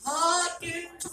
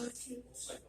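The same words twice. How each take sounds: First: The name is said loudly. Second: The name is said softly.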